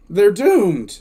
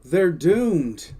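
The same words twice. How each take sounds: First: Louder, higher cry of doom; emphatic exclamation. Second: Said in the usual way. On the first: Real, not acted. Host reacting to the troopers losing their arsenal, emphatic. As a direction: exclaim it harder, with dismay.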